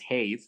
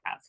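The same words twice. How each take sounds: First: The word is sounded out literally from its letters. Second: The word is said the ordinary everyday way. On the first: The speaker calls it wrong. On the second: The speaker calls it right.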